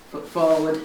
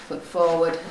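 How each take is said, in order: Both takes have the same delivery.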